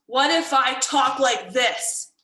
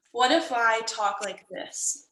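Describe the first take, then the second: First: Stern, louder, drawn-out upset voice. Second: Slow, subdued sad voice. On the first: Teacher demonstrating a tone for students to guess, upset. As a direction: say it slowly and firmly, as if cross. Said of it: "that's an upset tone". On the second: Teacher demonstrating a tone for students to guess, sad. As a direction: drag the words out sadly. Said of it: "I was trying to communicate sad". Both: Shown as a demonstration.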